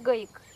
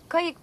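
First: The word begins with a voiced g sound. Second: The word begins with a voiceless k sound.

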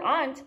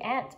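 First: The word does not sound like insect 'ant'. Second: The word sounds like the insect 'ant'. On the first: "I call her aunt" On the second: "No, that's the hormiga"

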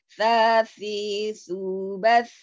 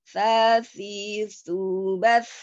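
No difference in how they are said.

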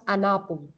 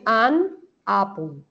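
First: The two words are linked together. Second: The two words are said separately. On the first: "pero tú puedes pegar las dos palabras" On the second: "Tú puedes decir an, apple"

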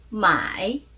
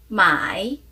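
First: The tone dips low, then rises. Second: The same.

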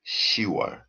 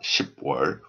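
First: The number's final consonant is dropped before the ending. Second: The number's final consonant is kept before the ending. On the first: The speaker calls it right. "we pronounce 10월" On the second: The speaker calls it wrong. "So not 10월"

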